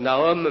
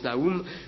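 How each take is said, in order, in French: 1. Le nom se prononce à la manière du vieux français. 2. Le nom se prononce avec la voyelle 'oo'. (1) "en français, on disait autrefois plutôt Nahum" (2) "des Bibles qui ont mis O U pour qu'on prononce Nahum"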